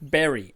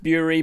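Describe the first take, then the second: First: The first vowel sounds like in 'berry'. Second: The first vowel sounds like in 'jury'. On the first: "as in digging in the ground and burying something" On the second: "we don't sit on a jerry, we sit on a jury"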